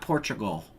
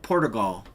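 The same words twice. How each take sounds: First: It is said the usual English way. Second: It is said the way Portuguese people say it. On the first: This is how it is commonly said here. "not Portugal" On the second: This is how a person from there says it. "he pronounced it Portugal"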